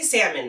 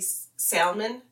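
First: The L sound in the word is silent. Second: The L sound in the word is pronounced. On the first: "You don't pronounce the L" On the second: "I would say salmon like that?"

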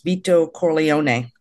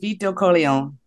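First: The name is said in a put-on accent. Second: The name is said in a plain voice.

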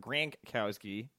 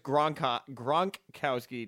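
First: The first syllable is said as 'gran'. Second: The first syllable is said as 'gron'. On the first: The speaker calls it wrong. "not Grankowski" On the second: The speaker calls it right. "it's Gronkowski"

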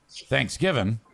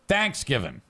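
First: The stress is not on the first syllable. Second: The stress is on the first syllable. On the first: "it'd be okay if he said Thanksgiving" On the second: "he emphasizes thanks"

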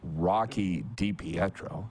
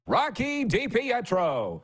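First: The name is said in a plain, flat way. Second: The name is said with a big, showy flourish. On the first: The speaker calls it wrong. "You don't say" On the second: The speaker calls it right.

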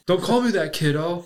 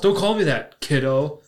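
First: It runs on without a pause before kiddo. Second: There is a little pause before kiddo.

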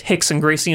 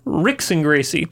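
First: The name begins with an H-like sound. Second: The name begins with an English R sound. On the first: This is the Portuguese pronunciation. The speaker calls it right. "Portuguese pronounce the R's like an H" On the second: This is how the spelling reads to an English speaker. The speaker calls it wrong. "his name says Ricks and Gracie"

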